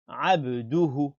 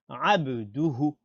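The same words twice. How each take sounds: Both takes have the same delivery.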